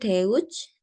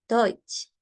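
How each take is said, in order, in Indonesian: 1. Vokalnya diucapkan e lalu u. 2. Vokalnya diucapkan seperti oy. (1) "bukan Deutsch" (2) "E U itu dibaca O I"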